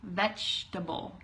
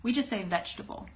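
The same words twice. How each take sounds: First: Vegetable slow, every syllable veg-e-ta-ble spoken; over-careful vegetable, slowly; vegetable spelled out in sound; four-syllable vegetable. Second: Vegetable quick as vej-ta-ble; casual clipped vegetable, three beats; natural fast vegetable, vej-tuh-bul; three-syllable vegetable. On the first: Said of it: "We don't have to say vegetable". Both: Shown as a demonstration.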